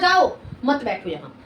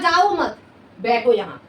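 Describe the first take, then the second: First: The pause comes after the word 'jao'. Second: The pause comes after the word 'mat'. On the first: Go, don't sit here. "मैंने सुना जाओ" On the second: Don't go, sit here. "उसने कहा"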